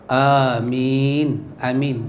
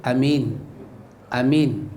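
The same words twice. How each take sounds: No difference in how they are said.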